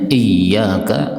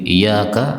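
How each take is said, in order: First: The y sound is held long and doubled. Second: The y sound is short and single.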